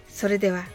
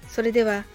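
The two takes are said the same way.

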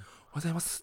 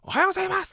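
First: It is said in a quiet voice. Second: It is said in a loud voice.

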